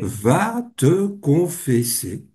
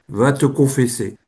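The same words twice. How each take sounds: First: The phrase is spoken very slowly. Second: The phrase is spoken at a normal pace. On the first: "Et la parole est revenue, mais très lentement" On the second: "Parole claire, nette, précise, une parole d'autorité"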